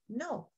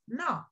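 First: The vowel is a long oh sound. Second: The vowel is a short ah sound. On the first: The speaker calls it right. "I know to say me, hi, no" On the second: The speaker calls it wrong. "So now I know not to say meh, eh, nah"

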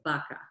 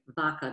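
First: It is said with an American English pronunciation. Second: It is said with a Castilian Spanish pronunciation. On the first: The speaker calls it wrong. "they'd say vaca" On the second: The speaker calls it right. "as the Spanish traditional classic pronunciation, Castilian"

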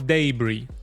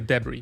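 First: The final vowel glides into an ey sound. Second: The final vowel is a pure vowel. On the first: "Dlatego mówią debris" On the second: "a nie debris"

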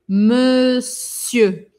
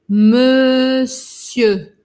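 No difference in how they are said.

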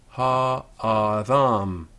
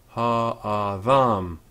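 Both takes have the same delivery.

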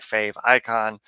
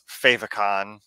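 First: It is said as 'fave' plus 'icon'. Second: It is said to rhyme with 'emoticon'. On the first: "other people would say fave icon" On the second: "in my head, it's favicon, the same way like emoticon"

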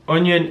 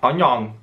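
First: It is said in an English accent. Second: It is said in a Welsh accent.

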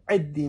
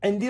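First: No n sound is heard in the middle. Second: An n sound is heard in the middle. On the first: This is the form most people use. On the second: This is the full form.

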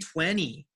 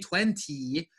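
First: The T after the N is dropped. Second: The T after the N is clearly pronounced. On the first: The speaker calls it right. "we say 20" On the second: The speaker calls it wrong. "we don't say 20"

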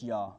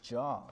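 First: The name begins with a Y sound. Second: The name begins with a J sound. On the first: The speaker calls it right. "let's just say Yah" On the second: The speaker calls it wrong. "I don't think there's a J pronunciation in Hebrew"

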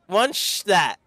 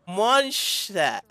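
No difference in how they are said.

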